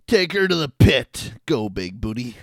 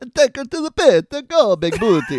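First: It is said in a plain, unaccented voice. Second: It is said in an Italian accent. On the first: The speaker calls it wrong. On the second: The speaker calls it right.

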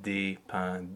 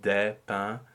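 First: The vowel in des is a closed E. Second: The vowel in des is an open E. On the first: This is the everyday spoken pronunciation. The speaker calls it wrong. "and not des pains... That's how I would speak it" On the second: This is the lyric diction used in singing. The speaker calls it right. "this is really des pains"

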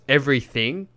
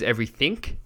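First: The word ends with a plain ng sound. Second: The word ends with an added k sound.

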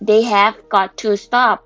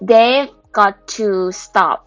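First: The word 'have' is said in full. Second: The word 'have' is contracted onto 'they'.

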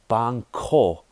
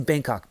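First: It uses a Thai-style pronunciation. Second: It uses the common English pronunciation. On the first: The speaker calls it right. "the real way you pronounce it, how the Thai say it" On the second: The speaker calls it wrong. "People say Bangkok"

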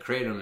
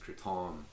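First: It is pronounced the hillbilly way. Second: It is pronounced the American way. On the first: "is the hillbilly way of saying it" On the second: "the American way of saying it is"

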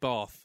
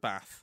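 First: It is said in a southern English accent. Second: It is said in a northern English accent. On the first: "I was the only person with a southern accent" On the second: "rather than Bath"

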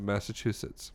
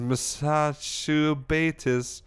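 First: The word is pronounced in the standard way. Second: The word is pronounced in a garbled way. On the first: This is the correct spelling of the word. The speaker calls it right. "Instead of Massachusetts" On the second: The word is misspelled on the shirt. The speaker calls it wrong. "it says Massachusetts"

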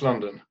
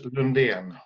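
First: The name is said with an English pronunciation. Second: The name is said with a Swedish pronunciation. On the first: "The English pronunciation, pretty much London" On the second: "In Swedish, Lundén"

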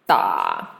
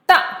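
First: The pitch dips low and comes back up. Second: The pitch falls sharply from high to low.

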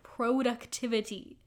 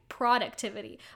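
First: The first syllable sounds like 'pro' with long o. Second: The first syllable sounds like 'prod' in product. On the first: "I guess pro, like there's a P-R-O" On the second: "I say productivity, but I think it's product"

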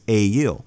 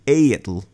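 First: The final L is a plain English L. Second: The final L is an Icelandic double L. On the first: The speaker calls it wrong. "we are also not pronouncing it properly according to modern Icelandic" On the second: The speaker calls it right. "ale's name in Icelandic actually has two L's. So it should be"

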